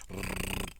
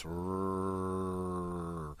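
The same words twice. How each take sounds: First: Rrrr rolled as in Spanish or Italian; trilled R. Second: Long, held English rrrr; English liquid R. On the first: Teacher rules out the Spanish sound, rrrr as a rolled trill. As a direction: trill the tongue tip on rrrr. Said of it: "the pretty trilled R that we might find in Spanish". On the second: Teacher shows the English consonant, rrrr held smooth and liquid. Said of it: "like a very liquid sound". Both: Shown as a demonstration.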